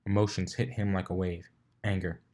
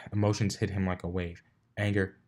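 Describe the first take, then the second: No difference in how they are said.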